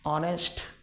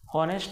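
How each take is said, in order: First: The word begins directly with a vowel sound. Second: The word begins with an audible h sound. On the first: The speaker calls it right. "हा एच त्या ठिकाणी silent आहे" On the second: The speaker calls it wrong. "हॉनेस्ट बोलतात, पण ते अगदी चुकीचं आहे"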